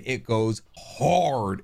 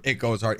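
First: Very slow, stretched It goes hard; hyping episode seven to friends, slowly; drawn-out emphasis. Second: Said in the usual way. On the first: Real, not acted. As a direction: savor each word of It goes hard.

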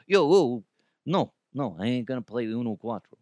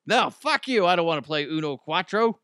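First: Attempted New York accent. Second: Higher, louder snap of a brusque New Yorker; rude New Yorker. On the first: A passerby waves off the Uno pitch in a rough New York accent. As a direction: brush it off fast in a shaky New York accent. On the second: Pretend. A rude New Yorker tells the Uno pitchman off, loud and high. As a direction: bite back hard, like a blunt local turning down a stranger. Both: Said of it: "I don't know a New York accent".

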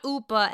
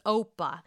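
First: "Oopa" with a long oo at the start; wrong pronunciation. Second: "Opa" with a clear oh at the start; correct pronunciation. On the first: Host mocking Ebony's mispronunciation "Oopa". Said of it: "not Oopa". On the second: Host correcting Ebony, plain "Opa" with oh. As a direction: say "Opa" as oh-pah. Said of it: "not Oopa, it's Opa". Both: Shown as a demonstration.

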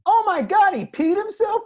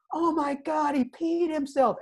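First: Very high, loud fake-shocked taunt; mocking accusation. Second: Put-on much higher taunting kid voice; mocking teammates. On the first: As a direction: loudly turn the blame on another kid. Speaker mocks the other kid. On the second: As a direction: tease like a schoolyard crowd.

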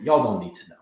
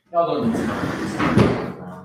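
First: Said in the usual way. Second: Slow drawn-out laughing repeat. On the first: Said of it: "You know what? It's a long story". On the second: Real, not acted.

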